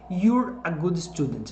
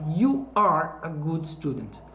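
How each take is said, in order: First: You are is contracted into one syllable. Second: You are is said as two full words.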